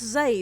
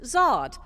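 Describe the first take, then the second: First: The name is said like 'Zaid'. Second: The name is said like 'Zard'. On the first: This is how the book actually has it pronounced. "It's pronounced Zaid" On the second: This is how the spelling suggests it should sound. "it should be pronounced Zard"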